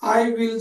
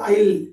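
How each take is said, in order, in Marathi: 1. हे दोन पूर्ण शब्द म्हणून म्हटलं जातं. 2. हे एका छोट्या अक्षरात आखूड होऊन म्हटलं जातं. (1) "आय विल चा" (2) "शॉर्टकट"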